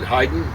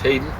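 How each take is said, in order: First: The name sounds like the composer's name. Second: The name gets its common, different pronunciation. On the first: The speaker calls it right. "Probably should be said Haydn, like the composer" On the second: The speaker calls it wrong. "I think it's mispronounced Hayden"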